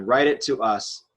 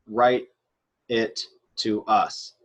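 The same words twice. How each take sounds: First: Said in the usual way. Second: "write it to us" slow, with gaps between words. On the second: Shown as a demonstration. Teacher translating the command for students, "write it to us" slowly word by word. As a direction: spell out "write it to us" one word at a time.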